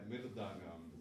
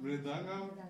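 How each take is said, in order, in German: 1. Das Wort beginnt mit den Lauten 'mir'. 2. Das Wort beginnt mit den Lauten 'mri'. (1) "aber kann man auch als M-I-R" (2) "Auf Sanskrit Mridangam"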